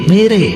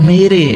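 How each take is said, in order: No difference in how they are said.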